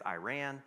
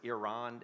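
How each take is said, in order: First: The word is said the American way. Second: The word is said the European way. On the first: "usually in America, it's Iran" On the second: "in Europe, it's Iran"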